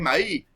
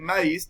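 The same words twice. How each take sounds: First: The word ends without an s sound. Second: The word ends with an s sound. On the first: "omiten la S o la Z" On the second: "en vez de decir maíz"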